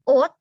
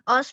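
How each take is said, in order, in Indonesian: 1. Kata ini diakhiri dengan bunyi t. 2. Kata ini diakhiri dengan bunyi s.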